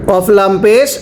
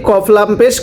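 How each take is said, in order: The two takes are said the same way.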